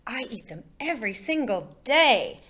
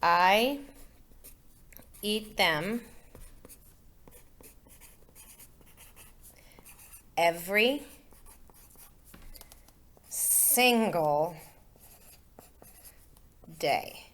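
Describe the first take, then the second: First: It is said with lively, emphatic energy. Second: It is said in a plain, flat way.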